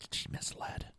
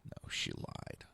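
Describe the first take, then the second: First: Whispered. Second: Hushed, slow correction of "lied"; whispered. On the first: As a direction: whisper "She misled." softly, voiceless. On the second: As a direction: whisper "No, she lied." slowly, voiceless. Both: Shown as a demonstration.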